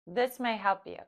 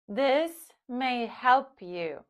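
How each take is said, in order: First: It is spoken at normal speed. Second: It is spoken slowly. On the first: "at normal speed"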